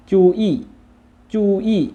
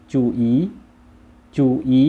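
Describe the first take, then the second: First: จูอี้ as Chinese, very high and loud, falling at the end; Chinese pronunciation. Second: จูอี as Vietnamese, near usual pitch and loud; Vietnamese pronunciation. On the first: Teacher models the Chinese word, high Chinese tones on จูอี้. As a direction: say จูอี้ in Chinese, high then a sharp fall. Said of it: "ภาษาจีนอ่านว่า". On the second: Teacher models the Vietnamese word, level Vietnamese tones on จูอี. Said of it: "ในภาษาเวียดก็จะว่า". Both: Shown as a demonstration.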